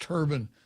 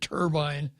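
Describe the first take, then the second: First: The word ends like 'ban', as in the hat. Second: The word ends like 'bine'. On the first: Other people have been heard saying it this way. "I've heard it pronounced turban" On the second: This is the speaker's own usual pronunciation. "I would probably pronounce it turbine"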